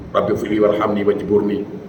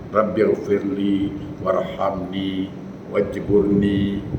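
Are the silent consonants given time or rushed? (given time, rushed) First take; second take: rushed; given time. First: The silent consonants are rushed through without time. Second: The silent consonants are held and given time. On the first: The speaker calls it wrong. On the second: The speaker calls it right. "Yang betul, berikan dia ruang tajwid"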